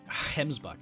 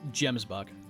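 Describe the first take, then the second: First: The word starts with an H sound. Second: The word starts with a hard G sound. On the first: "also pronounce it like Hemsbuck" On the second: "like I've said it"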